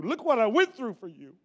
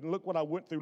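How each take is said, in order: First: The repeat pushed louder; insistent rising complaint; mock complaint. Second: Said in the usual way. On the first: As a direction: press the complaint harder the second time.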